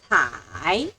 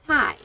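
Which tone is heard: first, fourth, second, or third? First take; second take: third; fourth. First: The pitch dips low, then rises. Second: The pitch falls sharply from high to low. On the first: "Third toe" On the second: "Fourth toe"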